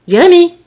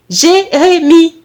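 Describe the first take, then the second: First: Short, loud, high call; louder, higher-pitched mother's call. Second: Slow, loud, syllable-by-syllable call; high, drawn-out mother's summons; insistent call. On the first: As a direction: summon your son sharply. Mother calls inattentive son. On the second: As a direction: stretch out the name to get his attention. Mother calls him again, insisting. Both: Acted.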